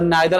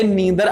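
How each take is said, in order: First: The first vowel sounds like 'nye'. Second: The first vowel sounds like 'nee'. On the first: "नाइदर आपका British accent होता है" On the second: "ये नीदर American accent होता है"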